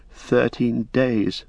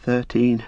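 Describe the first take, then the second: First: Slow, halting "thirteen days", unsure; faltering. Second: Hesitant, caught off guard; a nervous first try at "Thirteen"; faltering. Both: Acted. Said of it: "faltered Pippin".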